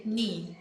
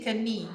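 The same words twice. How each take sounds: First: "knee" starting straight on the n sound; silent K. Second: "kani" with a sounded K before the n; K wrongly pronounced. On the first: Teacher showing learners the correct word, silent K in "knee". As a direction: say "knee" as one syllable, nee. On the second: Teacher showing learners the mistake, K sounded in "kani". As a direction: say "kani" in two syllables, k-uh-nee. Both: Shown as a demonstration. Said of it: "the letter K here is silent".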